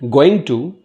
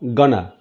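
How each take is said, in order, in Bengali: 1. প্রতিটি শব্দ আলাদাভাবে ও পুরোপুরি বলা হয়। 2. শব্দগুলো মিশে গিয়ে একটি সংক্ষিপ্ত শব্দ হয়ে যায়।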